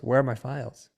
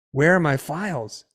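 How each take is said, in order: First: Said in the usual way. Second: Imitating an annoyed wife, louder and higher; unfriendly. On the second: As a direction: demand it accusingly, mimicking her. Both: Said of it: "not in a friendly tone".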